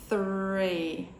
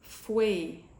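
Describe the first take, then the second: First: The word starts with a th sound. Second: The word starts with an f-like sound. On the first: The speaker calls it right. "we'd want them to say three correctly" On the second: The speaker calls it wrong. "it's sounding quite immature"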